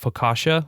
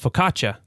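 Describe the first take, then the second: First: The middle consonant is a soft 'sh' sound. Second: The middle consonant is a hard 'ch' sound. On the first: This is the common American English pronunciation. "with this like soft S H" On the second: This is the Italian pronunciation. "a s- harder C H"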